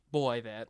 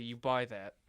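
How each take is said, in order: First: Put-on "boy, that" sung out like a pop-punk singer; a pop-punk singer's voice. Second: Said in the usual way. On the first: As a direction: say buy as "boy" like a pop-punk band's singer. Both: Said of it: "I don't know why I did that voice".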